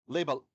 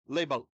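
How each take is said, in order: The two takes are said the same way.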